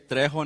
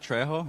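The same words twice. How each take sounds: First: The R is rolled, Spanish style. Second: The R is a plain English R. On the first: The speaker calls it right. "Please say Trejo, You have to pronounce that R" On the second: The speaker calls it wrong. "not Trejo"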